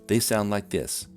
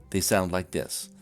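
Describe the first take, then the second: The two takes are said the same way.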